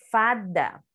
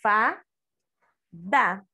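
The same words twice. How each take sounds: First: Said in the usual way. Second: FADA broken as FA, long pause, DA; each syllable of Fada on its own; separated syllables. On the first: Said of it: "Vamos ver a palavrinha". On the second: Shown as a demonstration. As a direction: say Fada as two isolated syllables. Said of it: "Olha a palavrinha separada".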